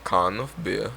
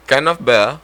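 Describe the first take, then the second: First: Can of beer in an accidental Jamaican lilt; Can of beer sounding Jamaican when English was intended; Jamaican-sounding accent. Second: Can of beer pitched up and louder in a put-on English accent; attempted English accent. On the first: Friend asked for an English accent, comes out Jamaican-sounding. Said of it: "You just said bacon in a Jamaican accent". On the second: Friend retries the English accent test, higher and louder. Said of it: "In an English accent". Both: Shown as a demonstration.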